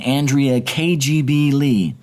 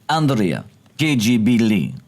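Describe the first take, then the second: First: It is said in the speaker's normal accent. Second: It is said in a put-on Russian accent.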